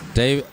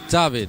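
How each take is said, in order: First: The name is said the usual English way. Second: The name is said the European way.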